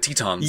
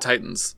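First: It is said as a literal reading, 'Tetons'. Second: It is said as the usual English 'Titans'. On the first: The name is read literally from its Japanese spelling. The speaker calls it wrong. "so you would pronounce it Tetons" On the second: This is the intended meaning of the name. The speaker calls it right. "it's clearly just the Titans"

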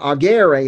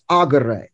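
First: The stress is on the second syllable. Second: The stress is on the first syllable. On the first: The speaker calls it wrong. "notice is not agere" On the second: The speaker calls it right. "it's agere. That's how you pronounce it"

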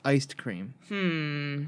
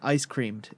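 First: A d sound follows the word ice. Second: A d sound follows the word cream. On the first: The speaker calls it right. "but it's iced cream. That's the right way of saying it" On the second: The speaker calls it wrong. "You're saying ice creamed"

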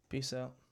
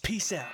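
First: It is said weakly and flatly. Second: It is said with energy and feeling.

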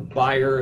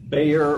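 First: The name is said the German way. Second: The name is said the English way.

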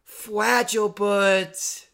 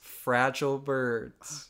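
First: It is said in a put-on character voice. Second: It is said in a plain, normal voice.

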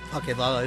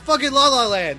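First: It is said flatly, without much feeling. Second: It is said with strong, emphatic feeling. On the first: The speaker calls it wrong. "you've got the words right, but not the feeling" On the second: The speaker calls it right. "It's fucking La La Land"

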